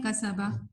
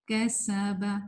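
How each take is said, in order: First: کسبہ said quickly with a short س; wrong reading. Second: کسبہ with a lingering, whistled س; correct reading. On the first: Teacher showing the mistake, clipped س in کسبہ. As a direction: pass over the س in کسبہ without any hiss. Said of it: "جب ہم غلط پڑھتے ہیں". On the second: Teacher modelling the right way, held س in کسبہ. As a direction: stretch کسبہ, holding the س for a moment. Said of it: "تھوڑی دیر رہنی چاہیے". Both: Shown as a demonstration.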